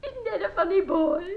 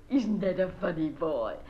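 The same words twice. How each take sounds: First: Much higher, cooing gush. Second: Said in the usual way. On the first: Acted. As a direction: coo it proudly about the boy. Repeats praise of son.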